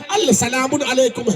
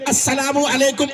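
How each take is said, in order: First: A separate l sound is heard before s. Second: The l blends into a doubled s sound. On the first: This is the underlying written form. "असल में" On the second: This is how the greeting is usually said. "सबने सलाम किया है"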